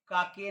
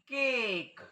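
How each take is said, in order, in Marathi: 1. तो 'ah' ने दोन अक्षरांत म्हटला जातो. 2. तो 'ay' ने एका अक्षरात म्हटला जातो.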